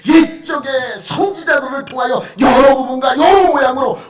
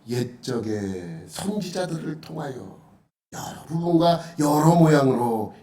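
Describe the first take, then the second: First: It is read quickly and forcefully. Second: It is read slowly and calmly. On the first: The speaker calls it right. "급박하게 읽어야 돼요" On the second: The speaker calls it wrong. "이렇게 읽으면 안 돼요"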